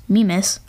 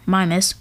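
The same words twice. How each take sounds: First: "Mimas" said MEE-mis; first pronunciation variant. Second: "Mimas" said MY-mis; alternative pronunciation. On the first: Host offers one way to say a moon's name, "Mimas" as MEE-mis. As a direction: say "Mimas" with a long ee in the first syllable. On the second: Host offers the other way to say a moon's name, "Mimas" as MY-mis. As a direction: say "Mimas" with an eye sound in the first syllable. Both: Shown as a demonstration. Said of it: "however you want to pronounce it".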